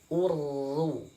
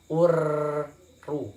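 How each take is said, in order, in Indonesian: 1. Huruf r ganda memiliki getaran sedang dan singkat. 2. Huruf r ganda digetarkan dengan getaran yang terlalu banyak.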